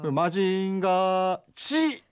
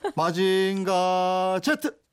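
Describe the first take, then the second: First: The name ends with the syllable 'ji'. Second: The name ends with the syllable 'jet'. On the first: This version sounds odd to listeners. The speaker calls it wrong. "이러면. 이상해요" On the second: This is how the name was always said. The speaker calls it right. "이랬거든"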